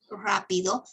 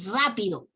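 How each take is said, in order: First: The R is a normal rolled trill. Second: The R is dragged into a buzzing z-like sound. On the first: The speaker calls it right. "en vez de decir" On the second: The speaker calls it wrong. "dicen rápido ... la pronuncian como z"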